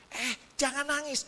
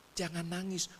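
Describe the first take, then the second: First: Higher-pitched flustered retold plea; panik menenangkan. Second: Soft retold hushing; menenangkan murid. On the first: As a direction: urge the crying child to stop, pitch raised. Second try as crying gets worse. (nada tinggi, kewalahan menenangkan anak) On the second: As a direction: gently ask the crying child to stop. Soothing a crying pupil, first try. (lembut menenangkan anak yang menangis)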